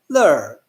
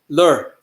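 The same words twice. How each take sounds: First: The syllable is said on a falling tone. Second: The syllable is said on a low tone. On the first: It means maggot. "Then you could pronounce it in a descending tone" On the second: It means stone. "You could pronounce it in a low tone"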